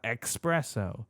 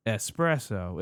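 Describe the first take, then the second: First: "espresso" mispronounced as ex-PRESS-oh; "espresso" said as if it started with EX; common mispronunciation. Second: "espresso" said with an S, es-PRESS-oh; slow, careful "espresso" starting "ess"; correct pronunciation. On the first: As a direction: put a K sound into "espresso", like "expresso". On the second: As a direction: say "espresso" with a clean S, no K sound. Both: Shown as a demonstration. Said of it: "people pronounce them as if it's E X".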